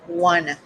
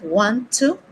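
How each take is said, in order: First: The words blend into one short reduced word. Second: Both words are said fully and separately. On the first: "we're going to say wanna" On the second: "instead of want to"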